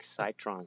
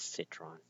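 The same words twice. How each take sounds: First: The first syllable does not sound like 'sit'. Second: The first syllable sounds like 'sit'. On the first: It is a cooler-sounding name. "I call him Citron because I think Citron sounds like a cooler name" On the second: The name comes from the fact that he sits. "the real pronunciation is Citron because he sits"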